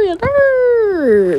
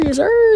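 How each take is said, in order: First: "Yes, sir" in a high, loud put-on voice, dragged out and falling on "sir". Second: High, loud, pumped-up "Yes, sir"; hyped yell. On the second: Pretend. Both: Hyped repeated catchphrase.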